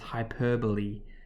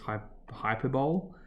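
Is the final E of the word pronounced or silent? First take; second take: pronounced; silent. First: The final E is pronounced. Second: The final E is silent. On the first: The speaker calls it right. "You pronounce that E at the end, not a silent E" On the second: The speaker calls it wrong. "We think it's hyperbole"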